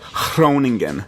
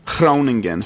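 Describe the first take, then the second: First: The G is a breathy huh and the R rolls. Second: The G is a breathy huh and the R rolls.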